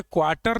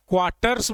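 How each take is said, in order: First: क्वार्टर ending on R, without S; no final S. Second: क्वार्टर्स with a clear S at the end; final S sounded. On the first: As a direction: say क्वार्टर as a bare singular. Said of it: "नहीं बोलते हैं". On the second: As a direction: say क्वार्टर्स, closing on "rs". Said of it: "बोलते हैं". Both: Shown as a demonstration.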